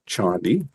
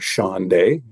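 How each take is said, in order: First: The name is said the plain, everyday way. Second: The name is said a fancier, sophisticated-sounding way.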